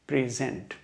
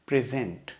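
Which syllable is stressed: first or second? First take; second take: second; second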